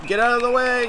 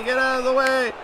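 First: High urgent call, not yet full shout; urging a player to move; higher, pressing get out of the way; urgent plea. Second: High, full shout at the screen; frustrated shout, pitch way up. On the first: Yelling at players in game. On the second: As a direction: yell it at the player now. Repeated louder as a shout. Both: Real, not acted.

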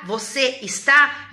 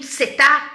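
First: "você está" slowly, each syllable separate; full form. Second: "você tá" squeezed short; colloquial contraction. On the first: Teacher contrasting the full form with the short one, slow. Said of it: "virou your". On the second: Teacher comparing Portuguese shortening to English, contracted. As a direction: cut "você está" down to a quick "cê tá". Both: Shown as a demonstration.

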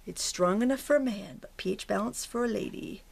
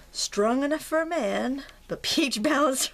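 First: Said in the usual way. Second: Slow, higher ad-read voice; hammed-up deodorant commercial line; commercial slogan. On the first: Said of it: "Secret, I think it was". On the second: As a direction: sell the slogan like an old TV ad. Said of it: "What was that commercial?".

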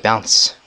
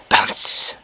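First: Said in the usual way. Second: Unvoiced whisper to oneself; whispered echo. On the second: Real, not acted. Player echoing the bounce to himself, whispered. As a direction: whisper it under your breath.

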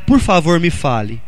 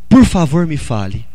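Both takes have the same delivery.

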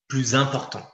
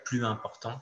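First: "Plus important" with the liaison, plyz-important; correct liaison. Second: "plus important" said as ply important, no Z sound; "plus important" with a clean break and no Z, as the mistake; wrong, no liaison. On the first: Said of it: "la liaison sera bien sûr obligatoire". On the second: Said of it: "On ne peut pas dire". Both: Shown as a demonstration.

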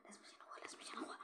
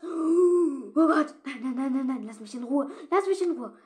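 First: Breathy, voiceless pleading; frightened whisper. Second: High, loud frantic pleading; terrified screaming. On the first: Player pleading in a hushed whisper while hiding. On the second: Player begging the attacking werewolf to leave her alone, screaming. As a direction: scream at it to go away. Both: Real, not acted.

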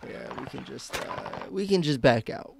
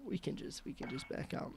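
First: Said in the usual way. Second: Breathy whisper, no voice at all. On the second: Shown as a demonstration. Streamer repeating his own line to chat, in a whisper. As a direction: drop it to a secret whisper.

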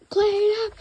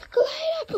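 First: High, loud frantic call; frantic panicked order; panicked cry. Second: Very high, loud panicked shriek; frantic shriek. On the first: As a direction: shout it in a panic. Attendant panics at the spilled drink. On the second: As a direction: scream it, losing control. Panic grows after the spill. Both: Acted.

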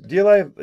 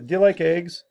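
First: Eager question. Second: Said in the usual way. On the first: Shown as a demonstration.

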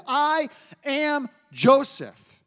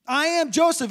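First: I am Joseph, slow and weighty; slow proclaiming of the name; emphatic declaration. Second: I am JOSEPH, higher, landing on Joseph; stress on Joseph. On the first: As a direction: say I am Joseph slowly, each word deliberate. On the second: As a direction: punch the name Joseph. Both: Shown as a demonstration. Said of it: "He just says his name".

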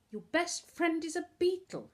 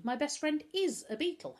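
First: High, louder incredulous question; scoffing. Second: High "is", stressed to confirm; emphatic affirmation. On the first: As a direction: scoff at an absurd claim. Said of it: "Novak scoffed". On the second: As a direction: lean on "is" to prove the point. Boy affirms his earlier claim. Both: A narrator's reading.

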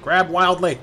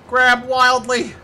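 First: Said in the usual way. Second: Loud, high, drawn-out shout; stretched-out holler; wild battle cry. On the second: Pretend. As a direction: yell it slowly like a battle cry. Escalated repeat of the line.

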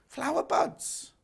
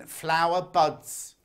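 First: "Flower buds" high and drawn out, rising; "Flower buds" stretched out as a high-pitched question; questioning repeat. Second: Said in the usual way. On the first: Real, not acted. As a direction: query "Flower buds" in a slow, high, lifted voice. Queries the name just read out.

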